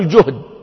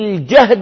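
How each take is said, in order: First: The first vowel is a 'u' sound. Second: The first vowel is an 'a' sound. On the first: "أو بضمها" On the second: "بفتح الجيم"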